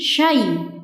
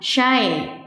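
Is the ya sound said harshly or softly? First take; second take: softly; harshly. First: The ya sound is said softly and gently. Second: The ya sound is said harshly and hard. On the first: The speaker calls it right. "dibaca dengan lembut atau lunak" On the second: The speaker calls it wrong. "bukan syai"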